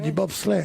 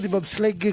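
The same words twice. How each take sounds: First: It is said in standard French pronunciation. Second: It is said imitating a Norman accent. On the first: The speaker calls it right. "on dit du bobsleigh" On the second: The speaker calls it wrong. "on dit pas du bobsleigh comme lui"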